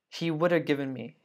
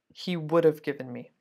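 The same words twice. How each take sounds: First: 'Would have' is reduced further, with no 'v' sound. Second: 'Would have' is shortened, keeping a light 'v' sound. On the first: "some people even get lazier" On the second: "that's how we say it all the time"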